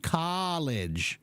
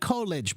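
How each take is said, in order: First: The first vowel is big and open. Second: The first vowel is small and narrow. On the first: The speaker calls it right. "but it's actually college" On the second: The speaker calls it wrong. "it looks like college"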